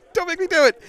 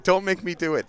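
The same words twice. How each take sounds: First: Much higher-pitched, louder mock yell; retold scream. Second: Half-laughing, a little higher pitch; laughing mock scream. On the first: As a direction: yell it high and hard, like a standoff warning. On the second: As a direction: laugh through a mock threat. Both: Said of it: "I started screaming".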